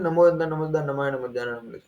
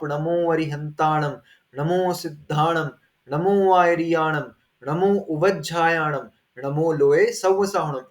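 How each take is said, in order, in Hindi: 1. जल्दबाज़ी में और अस्पष्ट बोला गया है, अक्षर आपस में मिल जाते हैं। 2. धीरे और साफ़ बोला गया है, हर शब्द पूरा बोला जाता है। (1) "इस प्रकार से नमोकार मंत्र बोलते हैं, ठीक है? एक मिनट के अंदर एक माला हो जाती है। तो ऐसा नहीं करना।" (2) "इस प्रकार से जाप करो।"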